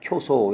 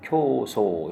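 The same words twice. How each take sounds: First: The vowels are said short. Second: The vowels are said long. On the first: The speaker calls it wrong. "이렇게 하면 안 되고요" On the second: The speaker calls it right. "이런 식으로"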